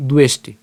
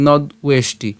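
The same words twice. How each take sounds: First: "দুয়েষ্টি" with d run into ue; no break inside "দুয়েষ্টি"; joined pronunciation. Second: "নদ উয়েষ্টি" split after the d; teacher separating "নদ" from "উয়েষ্টি"; broken-up pronunciation. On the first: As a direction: say "দুয়েষ্টি" as one word. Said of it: "উচ্চারণ করাটাই ভালো". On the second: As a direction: say "নদ", then "উয়েষ্টি". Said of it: "ভেঙে উচ্চারণ করতে গেলে". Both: Shown as a demonstration.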